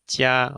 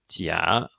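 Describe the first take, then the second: First: The pitch stays high and level throughout. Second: The pitch dips low, then rises. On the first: It means good. "we have in the first tone" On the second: It means fake. "in the third tone"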